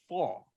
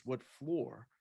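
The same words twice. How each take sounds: First: "Fall" for floor, R dropped; R-less Boston vowel in "Fall". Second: Said in the usual way. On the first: Retold or imitated. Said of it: "but she had no R". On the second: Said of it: "I asked her what floor".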